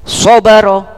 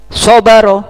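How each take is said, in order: The two takes are said the same way.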